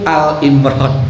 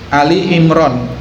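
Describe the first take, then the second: First: The first word has one syllable, 'Al'. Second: The first word has two syllables, 'Ali'. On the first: The speaker calls it wrong. "orang banyak menyebut Al Imran" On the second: The speaker calls it right.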